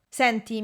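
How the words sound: It is said in an annoyed, rude tone.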